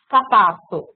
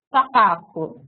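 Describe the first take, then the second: First: "sapato" com o som "sa" prolongado e a voz mais forte; "sapato" com prolongamento. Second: Said in the usual way. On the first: Shown as a demonstration. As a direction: estique o início de "sapato". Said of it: "ela prolongou esse san". ("sapato" alongando a primeira sílaba, imitando a criança) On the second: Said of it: "ela vai falar".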